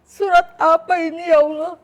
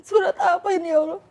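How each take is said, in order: First: Loud, high, choked-up plea to God; tearful high cry to God; tearful prayer. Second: High, loud sobbing plea; sobbing high cry to God; crying prayer. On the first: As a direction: cry out to God, on the edge of tears. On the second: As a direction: weep the question out to God. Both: Retold or imitated. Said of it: "Saya nangis".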